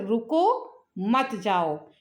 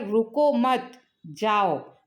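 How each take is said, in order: First: There is a pause after 'रुको'. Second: There is a pause after 'मत'.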